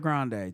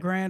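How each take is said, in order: First: It ends with a vowel after the d. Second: It ends on the d with no vowel. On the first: "Grand or Grande" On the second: "Grand or Grande"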